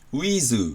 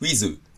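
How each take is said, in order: First: The word is said slowly and drawn out. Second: The word is said quickly and clipped. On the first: To Japanese ears it sounds like a lengthened vowel. "ゆっくり言えば" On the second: To Japanese ears it sounds like a short vowel. "早く言えば"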